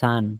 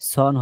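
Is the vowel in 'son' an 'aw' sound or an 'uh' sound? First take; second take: uh; aw. First: The vowel is a short 'uh' sound. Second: The vowel is an open 'aw' sound. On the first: The speaker calls it right. "উচ্চারণটা হবে his সান" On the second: The speaker calls it wrong. "সন হবে না"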